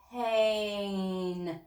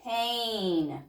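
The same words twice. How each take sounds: First: Pain drawn out slowly, sound by sound; slow stretched blending. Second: Pain said quickly as one word; said fast. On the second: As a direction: snap Pain together quickly. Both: Shown as a demonstration. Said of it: "Say it fast".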